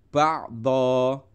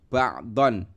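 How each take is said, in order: First: The word ends with a long open vowel. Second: The word ends with an n sound. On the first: The reader stops at this word. "kalau berhenti nanti bunyinya adalah ba'do" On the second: The reader continues without stopping. "Ini bunyinya adalah ba'don"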